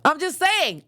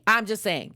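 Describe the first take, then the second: First: Much higher, pressing the word "saying"; playful insistence, the pitch jumps up; emphatic. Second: Said in the usual way. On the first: Real, not acted. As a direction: push "saying" up high like you're defending the joke.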